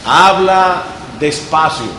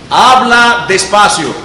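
First: Slow, deliberate and calm; slow again. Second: Slow, each word drawn out. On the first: Teacher repeating the advice, slow steady delivery. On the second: Teacher to students, slow clear demo. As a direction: show them how slowly to speak. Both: Shown as a demonstration.

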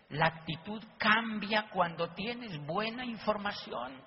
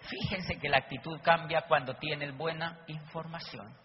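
First: Slow, deliberate repeat of "La actitud cambia". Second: Said in the usual way. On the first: Shown as a demonstration. Speaker drives the point home to the audience, slowly. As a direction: spell it out slowly so it sinks in.

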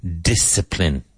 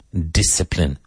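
Both takes have the same delivery.

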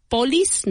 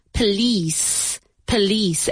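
First: "police" mispronounced as POH-lis, first syllable high and full; wrong first-syllable stress. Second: "Police" as puh-LEES, weak first syllable; second-syllable stress. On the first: Teacher showing the mistake, "police" stressed on the first syllable. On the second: Teacher correcting learners, "Police" with stress on the second syllable. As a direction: lean on the long "lice" of "Police". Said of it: "Emphasis on the second syllable". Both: Shown as a demonstration.

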